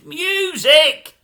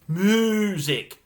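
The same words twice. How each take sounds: First: The word starts with a 'myoo' sound. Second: The word starts with a plain 'moo' sound. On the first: This is how the speaker says it. The speaker calls it right. "it's music!" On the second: Someone else said it that way. The speaker calls it wrong. "she's not a cow"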